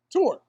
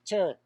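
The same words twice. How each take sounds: First: "Tour" with a full oo vowel, high and falling; corrected pronunciation. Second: "Tour" said with a flattened vowel, like "ter"; alternate pronunciation. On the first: Answering co-host's query on pronunciation, emphatic "Tour" as "toor". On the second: Answering co-host's query on pronunciation, "Tour" as "ter". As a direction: say "Tour" to rhyme with "fur". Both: Shown as a demonstration. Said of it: "Tour or tour?".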